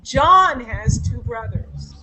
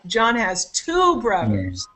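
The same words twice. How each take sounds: First: The stress is on the word John. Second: The stress is on the word two.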